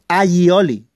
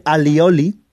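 First: "aioli" slowly, y sound for the double L; corrected pronunciation. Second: "alioli" with a plain L, a-li-o-li; common mispronunciation. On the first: Teacher correcting what everybody says, careful pronunciation. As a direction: stretch "aioli" out as a-yi-o-li. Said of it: "todo el mundo dice alioli". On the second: Teacher quoting what everybody says, mispronounced. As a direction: say "alioli" with an l instead of y. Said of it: "se pronuncia mal". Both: Shown as a demonstration.

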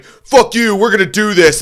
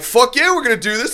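First: Loud, high-pitched defiance; retold angry acceptance. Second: Very high, hyped reply; fired-up agreement. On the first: Singer taking up the fight from the stage, loud angry defiance. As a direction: shout it as a furious dare. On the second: Retold or imitated. Drunk heckler calling the singer's bluff, high hyped agreement. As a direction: pitch it way up, eagerly matching the dare. Narrator answers the dare, retold.

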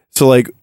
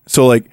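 No difference in how they are said.

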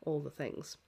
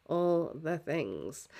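First: Said in the usual way. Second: Slow, stretched repeat; drawn out slowly. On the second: Shown as a demonstration. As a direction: stretch each word out slowly.

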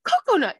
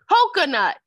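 First: "Coconut" as KOH-koh-nut, high and loud; high, emphatic "Coconut"; insistent repeat. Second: "Coconut" as KOH-kuh-naht, high, loud and falling; loud, drawn-down "Coconut"; imitated mispronunciation. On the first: Retold or imitated. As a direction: snap back "Coconut" with both full o sounds. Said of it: "That's what I said". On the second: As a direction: exaggerate "Coconut" with an open last vowel. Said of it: "That's not how you say it".

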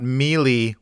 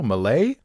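First: "melee" with long ee in both syllables; MEE-lee, as the mistaken version; wrong pronunciation. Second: "melee" with the weight on a rising LAY; French-leaning muh-LAY for "melee"; second-syllable stress. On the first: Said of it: "It's not melee". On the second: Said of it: "put the emphasis on, uh, the second syllable". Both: Shown as a demonstration.

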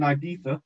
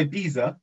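First: Said in the usual way. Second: Ibiza said "eye-BEE-za". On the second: Shown as a demonstration. Quoting how the song says it, Ibiza with a z. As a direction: say Ibiza with z, not th. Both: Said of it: "They pronounced it Ibiza in the song".

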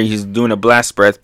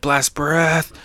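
First: Said in the usual way. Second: Mock battle call; attack call. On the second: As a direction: toss out the move name in a put-on voice. Calls out the attack name.

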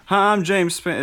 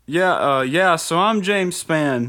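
First: High, loud weatherman voice; a loosely imitated TV weatherman; James Spann impression. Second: High, slow TV weatherman voice; a broad local weatherman, drawn out; James Spann impression. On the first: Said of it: "I can't get his voice". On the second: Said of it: "That's a good impression".

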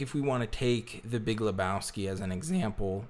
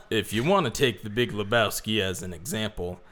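First: Voice cracking. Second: Said in the usual way. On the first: Real, not acted. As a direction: voice cracks mid-sentence. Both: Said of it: "my voice just cracked".

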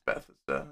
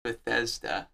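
First: "Bethesda" as BETH-uh-sda; low, muttered "Bethesda", first syllable stressed; habitual pronunciation. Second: "Bethesda" with THEZ stressed; soft, slow correction, "Bethesda" stressed on the middle syllable; corrected pronunciation. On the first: Real, not acted. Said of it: "how I've always pronounced it". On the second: Shown as a demonstration. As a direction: say "Bethesda" slowly as buh-THEZ-duh. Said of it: "It's Bethesda".

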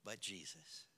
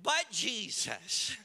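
First: Low, very soft, almost under the breath; soft, low and understated; hushed statement. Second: BUT JESUS said slowly and firmly, in full voice; "But Jesus" drawn out and projected; emphatic repeat. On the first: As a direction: drop it quietly into the silence. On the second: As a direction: drive home "But Jesus" with slow weight. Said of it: "Oh, I said". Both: Shown as a demonstration.

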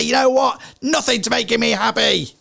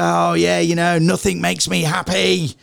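First: Stressed exasperation. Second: Mild complaint. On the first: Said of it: "In those moments of stress". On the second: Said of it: "A lot of people say". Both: Retold or imitated.

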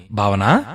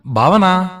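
First: First searching call with a rising end. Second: High, loud, drawn-out call; louder call. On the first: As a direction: call BHAVANA gently, lifting at the end. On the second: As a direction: call BHAVANA out across the house. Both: A narrator's reading. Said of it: "అని పిలిచారు".

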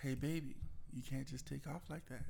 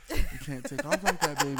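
First: Gentle, softened correction; soft as possible. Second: Louder, amused correction; putting voice in. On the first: Partner retelling how they corrected the driver, softly. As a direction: say it softly, careful not to set them off. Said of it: "I said it as soft as I could". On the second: Partner re-enacting the driving correction with more voice, louder. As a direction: project it, with laughter around it. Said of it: "I'm trying to get some voice". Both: Retold or imitated.

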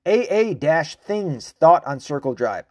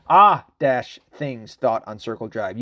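First: "A" said as the letter ay; spelled A. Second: "Ah" said as open ah, with a laugh. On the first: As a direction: say "A" as the letter name ay. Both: Shown as a demonstration. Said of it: "maybe it's pronounced Ah".

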